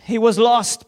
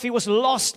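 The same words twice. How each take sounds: First: "was" hit loud with the whole phrase louder; preacher's emphatic stress on "was". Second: Said in the usual way. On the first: Shown as a demonstration. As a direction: proclaim "He was lost" with force.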